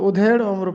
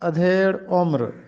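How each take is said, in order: First: The first word begins with a 'u' vowel. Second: The first word begins with an 'a' vowel. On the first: The speaker calls it wrong. "हम इसको उधेड़ उम्र पढ़ते हैं" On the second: The speaker calls it right. "दुरुस्त तलफ़्फ़ुज़ है अधेड़ उम्र"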